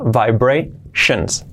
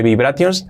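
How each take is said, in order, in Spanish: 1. La terminación se dice con un sonido 'shun' corto. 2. La terminación se dice en sílabas separadas, no 'shun'. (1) "La terminación. Shen, shen, shen" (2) "No dice vibrations"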